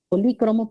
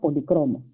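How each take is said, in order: First: The stress is on the second syllable. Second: The stress is on the third syllable. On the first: "Si es esdrújula se tilda" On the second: "si es grave, no"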